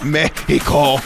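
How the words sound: The word has a Spanish pronunciation.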